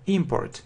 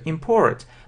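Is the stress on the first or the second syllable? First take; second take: first; second. First: The stress falls on the first syllable. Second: The stress falls on the second syllable. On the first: It is a noun: something brought in from abroad. "if it's a noun, ... Yes, the stress is on the first syllable" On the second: It is a verb: to bring something in from abroad. "And if it's a verb, ... the stress is on the second syllable"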